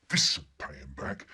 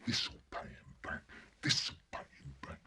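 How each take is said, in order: First: Said in the usual way. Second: Whispered with glee; boy plotting revenge in a whisper; scheming whisper. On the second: Acted. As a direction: hiss the revenge to yourself.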